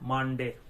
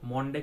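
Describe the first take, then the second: First: The first vowel is an open 'uh' sound. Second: The first vowel is a rounded 'o' sound. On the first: The speaker calls it right. "The actual pronunciation is মানডে" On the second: The speaker calls it wrong. "মন্ডে কিন্তু নয়"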